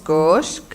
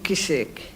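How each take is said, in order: First: It is said the Baalbeki way, one syllable. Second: It is said the Beiruti way, two syllables.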